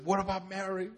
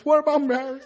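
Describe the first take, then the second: First: Lightly voiced movie hero, soft; a softer first hint of the character's voice; George Bailey impression. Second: Higher, hammed-up movie hero voice; George Bailey impression. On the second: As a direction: play up his way of talking for laughs. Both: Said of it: "He talks like this".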